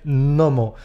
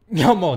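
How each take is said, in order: First: The word begins with a plain 'n' sound. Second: The word begins with an 'ny' sound. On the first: The speaker calls it right. "La primera consonante nos la merendamos" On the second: The speaker calls it wrong. "He oído por ahí incluso a personas que decían ñomo"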